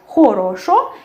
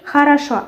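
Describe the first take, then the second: First: The unstressed vowels sound like o. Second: The unstressed vowels sound like a. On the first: "we write хорошо" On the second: "and say хорошо"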